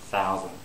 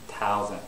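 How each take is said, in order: First: The word begins with a th sound. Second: The word begins with a t sound. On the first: The speaker calls it right. "I should pronounce thousand" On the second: The speaker calls it wrong. "I pronounced a T sound"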